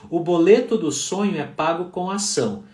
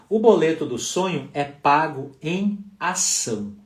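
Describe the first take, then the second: First: It is said at a faster pace. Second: It is said at a normal pace.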